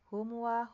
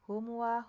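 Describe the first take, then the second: First: The m is rushed and blurred into the w. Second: The m is rushed and blurred into the w.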